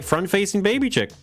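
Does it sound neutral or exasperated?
neutral. It is said in a plain, neutral way.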